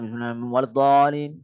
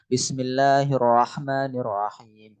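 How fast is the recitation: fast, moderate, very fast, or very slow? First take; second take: very fast; moderate. First: It is rushed through extremely quickly. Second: It is recited at a moderate, even pace. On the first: "cepat sampai dia" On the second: "itu yang biasa murattal"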